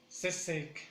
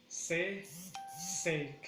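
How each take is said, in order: First: "Se, sec" joined, weight on sec; stress on second syllable. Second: "Se, sec" with a clear gap; syllable by syllable. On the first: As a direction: run "Se, sec" together as one word. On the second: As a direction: pull "Se, sec" into two beats. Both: Shown as a demonstration. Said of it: "en la segunda sílaba".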